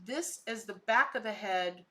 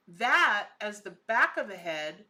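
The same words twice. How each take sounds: First: Said in the usual way. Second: "that" drawn out and louder; stress on THAT. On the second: Real, not acted. Vlogger correcting which part is the head, stress on THAT. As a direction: lean hard and slowly on "that".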